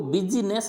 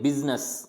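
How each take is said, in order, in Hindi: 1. इस शब्द में एक अतिरिक्त i स्वर बोला जाता है। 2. इस शब्द में कोई अतिरिक्त i स्वर नहीं बोला जाता है। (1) "इसको बिजनेस नहीं बोलेंगे" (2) "इसको बिजनेस बोलेंगे"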